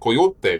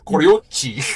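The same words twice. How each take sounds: First: The word is said with a Spanish accent. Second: The word is said with a Portuguese accent. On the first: "you say it with a Spanish accent" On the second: "you say it with a Portuguese"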